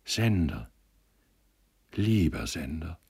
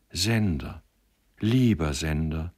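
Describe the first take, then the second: First: Tender, lingering remembered call; gentle, dreamy echo of her words; sweet soft voice. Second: Heartfelt, lingering address; moved, glowing affection; fervent outburst. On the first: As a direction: dwell gently on the name. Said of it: "nur die holde, weiche Stimme". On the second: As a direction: breathe out his name with feeling. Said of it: "stieß sie mit glühenden Wangen hervor". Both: A narrator's reading.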